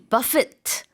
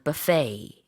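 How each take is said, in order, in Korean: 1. 이 단어는 분명한 T 소리로 끝나요. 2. 이 단어는 T 소리 없이 끝나요. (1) "이렇게 뒤에 T까지 발음을 했을 때는요" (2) "뒤에 T 발음하지 않습니다"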